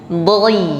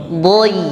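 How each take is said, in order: Both takes have the same delivery.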